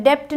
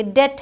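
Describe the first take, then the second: First: डेप्ट with a p/b sounded before t; wrong pronunciation. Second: डेट with nothing between vowel and t; silent b. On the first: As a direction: sound the silent letter in डेप्ट. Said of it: "डेप्ट नहीं है". (डेप्ट में ब/प बोलकर) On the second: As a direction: say डेट as "det". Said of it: "ये डेट है". (डेट में ब चुप) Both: Shown as a demonstration.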